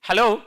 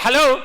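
First: The word is said at a normal volume. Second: The word is said more loudly.

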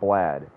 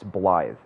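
First: The name has a short vowel as in bad. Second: The name has a long vowel as in scythe. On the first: The speaker calls it wrong. "It's not Blad" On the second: The speaker calls it right. "it's pronounced Blythe"

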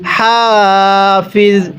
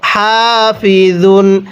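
First: The word ends on a bare 'z' sound. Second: The word ends with a full 'un' ending. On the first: The reading stops at this word. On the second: The reading continues without a stop.

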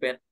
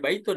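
First: The word is said short with no ending. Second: The word is said in full with its ending. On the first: This is the everyday colloquial form. The speaker calls it wrong. "biasanya mereka bet ya" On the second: This is the formal standard form. The speaker calls it right. "ya baitun bacanya"

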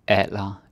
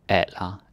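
Both takes have the same delivery.

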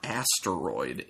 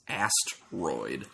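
First: It has a vowel between the s-t and r. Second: It has no vowel between the s-t and r. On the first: The speaker calls it wrong. "it's not Asteroid" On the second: The speaker calls it right. "this does not. It's Asteroid"

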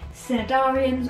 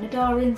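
First: The initial C sound is pronounced. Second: The initial C sound is silent.

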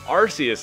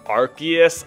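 First: The name begins with a soft 'ar-see' sound. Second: The name begins with a hard 'ark' sound. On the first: This is a popular but unofficial way to say it. The speaker calls it right. "clearly the superior pronunciation, even if it is technically incorrect" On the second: This is the official way to say it. The speaker calls it wrong. "it just sounds so terrible in my mouth"

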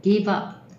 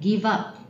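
Both takes have the same delivery.

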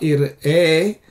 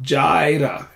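First: The word begins with a Y sound. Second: The word begins with a J sound. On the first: The speaker calls it right. "Yehovah Yireh" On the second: The speaker calls it wrong. "not Jireh"

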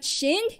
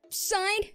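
First: It begins with sh and a short i. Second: It begins with s and a long i. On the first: "not Shin" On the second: "Not Sign"

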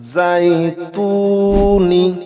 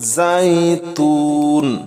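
First: The word ends with a short i vowel. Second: The word ends on the n sound. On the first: The reading continues without stopping. "নুন জের নি" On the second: The reader stops on this word. "থামলে হবে যাইতুন"

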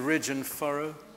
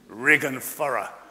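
First: The first word ends in a 'j' sound. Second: The first word ends in a hard 'g'.

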